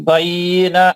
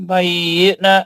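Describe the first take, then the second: Both takes have the same delivery.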